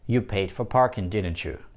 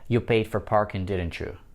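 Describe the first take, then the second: First: The voice falls on the tag at the end. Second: The same.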